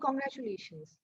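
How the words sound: It is said in a sad, downcast tone. The speaker wishes well but is unhappy about it. "if I'm saying that sadly"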